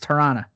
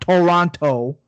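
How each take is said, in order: First: It is said with an East Coast accent. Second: It is said with a standard accent.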